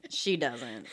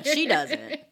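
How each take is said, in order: First: Dropped low and soft; a quiet, knowing repeat; quiet knowing aside. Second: Said in the usual way. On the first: Real, not acted. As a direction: mutter it under your breath. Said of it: "repeated lower and softer". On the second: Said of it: "repeated with different tone".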